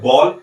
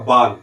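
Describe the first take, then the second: First: The vowel is a rounded 'aw' sound. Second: The vowel is an open 'aa' sound. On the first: It means a ball. The speaker calls it right. "जब हम आगत स्वर का प्रयोग करते हैं" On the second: It means hair on your head. The speaker calls it wrong. "नहीं करेंगे तो इसका उच्चारण होगा बाल"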